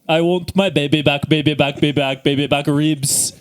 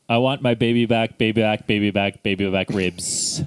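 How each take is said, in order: First: It is said as a Fat Bastard impression. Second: It is said in his normal voice.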